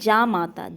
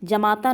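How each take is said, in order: First: The first vowel is long. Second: The first vowel is short. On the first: The speaker calls it right. "जामाता शब्द तत्सम है" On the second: The speaker calls it wrong. "जमाता न होकर क्या होता है"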